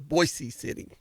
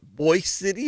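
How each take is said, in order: First: The first word has two syllables, 'boise'. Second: The first word is one syllable, 'boy'. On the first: "or Boise City?" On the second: "you say it Boy City"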